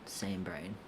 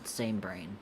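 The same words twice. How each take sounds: First: Soft unvoiced whisper of the words. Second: Said in the usual way. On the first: Real, not acted. Streamer agreeing with chat, then whispering to herself. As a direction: breathe it to yourself.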